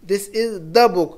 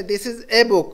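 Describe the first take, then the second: First: Slow phrase leaning on "the"; stress on "the". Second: "a" set apart as a clear "ay"; stress on "a". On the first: Teacher contrasting the articles, slowly stressing "the". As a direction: draw out the words, marking "the" before book. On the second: Teacher explaining the indefinite article, stressing "a". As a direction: lean on the article "a" before book. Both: Shown as a demonstration. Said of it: "तो a book कहते हैं हम जो".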